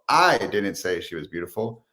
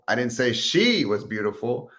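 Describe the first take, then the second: First: The word "I" carries the main stress. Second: The word "she" carries the main stress.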